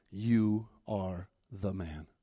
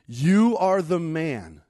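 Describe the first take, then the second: First: Very slow, low and softer; grave quiet verdict. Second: Slow, louder, ringing verdict; forceful accusation. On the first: Prophet delivering God's verdict to David, grave and quiet. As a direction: let each word fall slowly and softly. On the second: Prophet confronting David with his sin, forceful accusation. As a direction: drive the accusation home word by word. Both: Acted.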